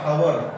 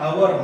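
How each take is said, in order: First: The word begins with an h sound. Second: The word begins with a vowel sound. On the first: The speaker calls it wrong. "Not" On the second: The speaker calls it right. "ಸ್ವರದ ಉಚ್ಚಾರ ಬರ್ತಾ ಇದೆ"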